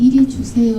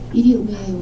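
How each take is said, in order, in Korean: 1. 모든 소리가 분명하게 발음돼요. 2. 웅얼거리면서 j 소리가 빠져요.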